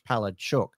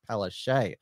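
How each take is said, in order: First: The name ends with a 'chuk' sound. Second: The name ends with a 'shay' sound. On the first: This is how the name is said in Polish. "the actual pronunciation of her name in Polish" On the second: This is how the name's owner says it. "she's been telling us for years that it's Palache"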